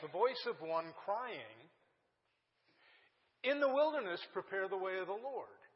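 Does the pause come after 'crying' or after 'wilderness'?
crying. The pause comes after 'crying'.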